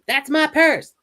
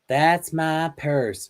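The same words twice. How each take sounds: First: It is said forcefully, with attitude. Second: It is said meekly, without attitude.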